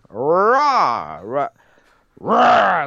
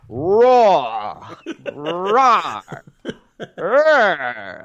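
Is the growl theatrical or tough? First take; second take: tough; theatrical. First: The growl sounds tougher and more aggressive. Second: The growl sounds theatrical, like a stage performer.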